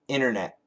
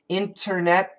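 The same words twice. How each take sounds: First: The T after the N is dropped. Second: The T after the N is clearly pronounced. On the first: "generally we say internet. We cancel the T" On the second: "Internet is perfect"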